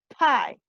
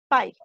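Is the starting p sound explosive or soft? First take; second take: explosive; soft. First: The p is released with a strong burst. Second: The p is soft without a burst of air. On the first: "mucho más explosivo" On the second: "así digo en español"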